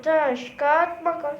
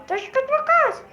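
First: Said in the usual way. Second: Squeaky, quick rock-paper-scissors chant; high cartoon kid voice. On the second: Character playing rock paper scissors, squeaky voice. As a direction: chirp "Taş kağıt makas" high like a toy.

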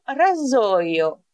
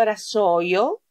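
First: "ραζόιο" with a buzzing z between the vowels; voiced Z. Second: "ρασόιο" with a hissing s between the vowels; unvoiced S. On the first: Teacher gives learners the correct word, buzzing z pronunciation. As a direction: say "ραζόιο" with z as in zoo. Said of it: "το λέω ραζόιο". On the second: Teacher shows learners the mistake, sharp s pronunciation. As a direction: say "ρασόιο" with s as in sun, questioning rise. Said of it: "Δεν το λέω ρασόιο". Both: Shown as a demonstration.

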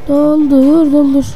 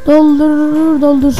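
No difference in how they are said.

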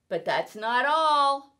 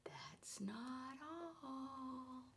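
First: Boastful. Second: Whispered, slow and teasing; suspense whisper. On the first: Cat boasting, building suspense. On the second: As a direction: hush it to build suspense. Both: Acted.

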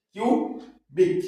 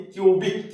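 First: "cubic" very slowly, a long gap between কিউ and বিক; split into syllables. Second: Said in the usual way. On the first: Shown as a demonstration. Teacher dividing the word for learners, slow, separated "cubic". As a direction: say কিউ, pause, then বিক.

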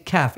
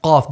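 First: Kaf with a light k. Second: Qaf strong from the back of the mouth; stronger Qaf. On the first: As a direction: say kaf lightly, k not from the throat. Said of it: "It's not a light one". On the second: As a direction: give Qaf a heavy back k. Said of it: "It's a stronger one". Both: Shown as a demonstration.

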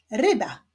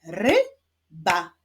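First: Said in the usual way. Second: "Ryba" as RY... BA, two separate beats; "Ryba" broken in two, rising on ry, dropping on ba; syllable by syllable. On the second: Shown as a demonstration. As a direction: clap out "Ryba" with a clear gap between ry and ba. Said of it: "Wyklaszczmy sylaby w wyrazie ryba".

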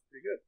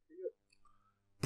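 First: Said in the usual way. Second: "Pretty good" whispered, slow. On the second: Acted. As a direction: breathe "Pretty good" out slowly. Repeating pretty good, then softer.

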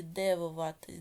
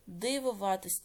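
First: "дивуватись" with E replacing the И; pronounced with E. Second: "Дивуватись" with a clear И; pronounced with И. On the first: Teacher offering pupils a spelling choice, "дивуватись" with E. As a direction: say "дивуватись" as de-vu-VA-tys. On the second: Teacher offering pupils a spelling choice, "Дивуватись" with И. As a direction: say "Дивуватись" as dy-vu-VA-tys. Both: Shown as a demonstration. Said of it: "яку букву Е чи И".

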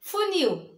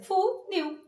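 First: Said in the usual way. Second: "Funil" in two beats, fu, nil; high-pitched "Funil" with a break after fu; syllable by syllable. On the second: Shown as a demonstration. ("Funil" separado em duas sílabas) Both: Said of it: "separa as sílabas".

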